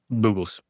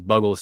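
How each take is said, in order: First: The first vowel is long, like 'boo'. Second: The first vowel is short, like 'bug'.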